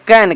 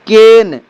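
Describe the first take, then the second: First: The vowel sounds like the one in 'cat'. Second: The vowel sounds like the one in 'bed'. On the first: The speaker calls it right. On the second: The speaker calls it wrong.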